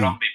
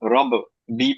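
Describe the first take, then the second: First: The b is held doubled without a break. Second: The b bounces with a break before bi. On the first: The speaker calls it right. "রব্বি পড়বো?" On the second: The speaker calls it wrong. "কারণ এটা কলকলা লেটার"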